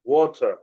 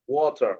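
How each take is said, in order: Both takes have the same delivery.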